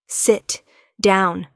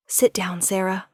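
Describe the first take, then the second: First: Louder, firm order; commanding. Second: Said in the usual way. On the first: Acted. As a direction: command her to sit. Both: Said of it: "there's command in his voice".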